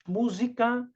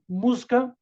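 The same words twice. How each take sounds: First: The word is said with three full syllables. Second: The word is squeezed into two syllables. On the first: This is how people in the south read it. "aqui a gente tem uma tendência, às vezes, de ler como" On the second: This is how a Northeastern poet counts it. "ele vai falar que viram de sílabo"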